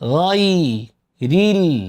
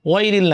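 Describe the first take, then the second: First: The word begins with a throaty gh sound. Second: The word begins with a w-like sound. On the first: The speaker calls it right. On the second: The speaker calls it wrong.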